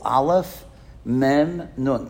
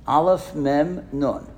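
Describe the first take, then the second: First: Said in the usual way. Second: Slow, each letter laid out for the crowd; slow spelling out. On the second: Shown as a demonstration. Rabbi spelling amen letter by letter for the congregation, slowly. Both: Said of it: "Can anybody figure that out?".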